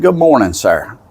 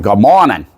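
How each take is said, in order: First: High, lilting hello to a stranger; retold friendly greeting, pitched well up; polite greeting. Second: Louder imitated cop's greeting; imitated New York cop reply; retired New York cop. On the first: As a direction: greet him in a raised, courteous voice. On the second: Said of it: "a retired New York cop".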